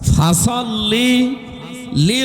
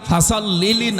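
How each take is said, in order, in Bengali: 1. দুটি শব্দ একটু বিরতি দিয়ে আলাদাভাবে বলা হয়। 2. দুটি শব্দ বিরতি ছাড়াই একসাথে বলা হয়। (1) "শব্দটা আলাদাভাবে পড়বেন" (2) "ফাসল্লিলি না"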